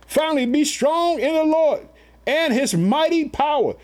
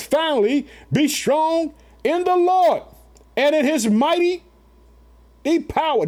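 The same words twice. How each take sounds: First: Scripture proclaimed again. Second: High, slow, ringing scripture reading; scripture proclaimed. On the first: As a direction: drive the verse home a second time. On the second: Preacher reading Ephesians aloud to his family, slow and high. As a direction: lift the verse up slowly to the congregation. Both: Acted. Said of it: "Did you hear that?".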